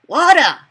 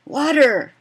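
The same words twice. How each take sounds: First: "Water" louder and higher, "wata" with the R dropped; the friend answering "Water" in Pidgin, loud and high. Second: "Water" said the English way, clear t. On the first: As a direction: call out "Water" the Pidgin way, ending on an open ah. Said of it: "Changes the wording a little bit". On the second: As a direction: say "Water" as the owner taught it, full R. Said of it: "So I say to my employee friend". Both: Retold or imitated.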